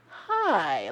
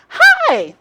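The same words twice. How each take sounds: First: The greeting sounds wary and suspicious. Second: The greeting sounds warm and genuine.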